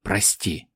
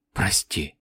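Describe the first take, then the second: First: Soft low apology; whispered. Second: Very soft low broken whisper; softer whisper. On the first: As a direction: whisper it with grief. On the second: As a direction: barely breathe the word. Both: A narrator's reading. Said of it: "прошептала девочка".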